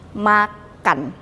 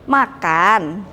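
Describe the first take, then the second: First: Said flatly with falling statement intonation. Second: Said with rising question intonation. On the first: It is just giving information. "kita ganti dengan tanda titik" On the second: It asks if someone is eating or invites them. "Kalau kita jadikan tanda tanya"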